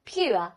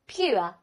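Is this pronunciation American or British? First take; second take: British; British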